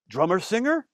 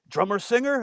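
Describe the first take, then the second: First: Put-on French Canadian accent. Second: "Drummer singer?" asked high in a mock French Canadian accent; a second, higher try at the French Canadian accent. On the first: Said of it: "I'm not doing a good French accent". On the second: Away greets the drummer singer, in a mock French Canadian accent. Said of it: "I'm not doing a good French accent, French Canadian".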